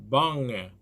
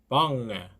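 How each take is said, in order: The two takes are said the same way.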